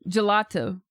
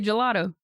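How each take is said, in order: First: The middle consonant is a clear T. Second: The middle consonant sounds like a D. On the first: The speaker calls it right. "I know most of you do not say gelato" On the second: The speaker calls it wrong. "I know you put a fucking D there"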